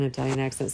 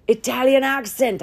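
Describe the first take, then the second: First: Said in the usual way. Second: Badly faked Italian accent, high and loud; hammed-up, amateur Italian accent; mock Italian accent. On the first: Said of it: "I don't know how to do". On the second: Podcaster joking about praying to the Lord, mock Italian accent. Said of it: "I might pray to the Lord in a".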